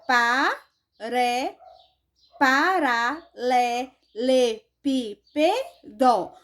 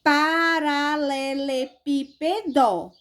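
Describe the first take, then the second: First: "paralelepípedo" very slowly, a gap after each syllable; split into syllables. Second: "Paralelepípedo" slowly in linked, even beats; "Paralelepípedo" measured out for a class to follow; reading by syllables. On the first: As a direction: separate every syllable of "paralelepípedo", restarting after a slip. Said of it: "na hora de separar". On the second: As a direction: read out "Paralelepípedo" carefully, each syllable distinct. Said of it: "Vamos ler comigo aqui". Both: Shown as a demonstration.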